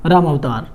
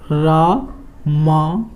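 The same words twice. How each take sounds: First: Said in the usual way. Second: Ramavatar drawn out slowly, syllable by syllable; slow dictation of Ramavatar; slow spelled-out demo. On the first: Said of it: "ये क्या हो जाएगा भाई?". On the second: Shown as a demonstration. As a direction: stretch Ramavatar out slowly as if writing it on the board. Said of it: "तो ये हम इसको कैसे लिखेंगे?".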